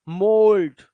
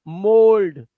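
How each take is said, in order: No difference in how they are said.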